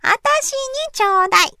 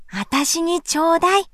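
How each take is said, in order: First: Put-on much higher, fast child whine; a little girl whining for candy; high whiny begging. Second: Put-on begging child. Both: A narrator's reading. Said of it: "せがみました".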